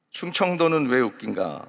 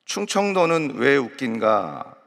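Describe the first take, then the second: First: Said in the usual way. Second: "충청도는 왜 웃긴가" said slowly and drawn out; book title, slowly. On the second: Shown as a demonstration. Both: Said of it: "재밌는 책을 발견을 했습니다".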